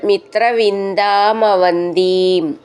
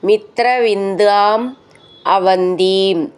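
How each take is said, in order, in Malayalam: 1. രണ്ട് വാക്കുകളും ഒന്നായി ചേർത്താണ് പറയുന്നത്. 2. രണ്ട് വാക്കുകളും വേറെ വേറെയാണ് പറയുന്നത്.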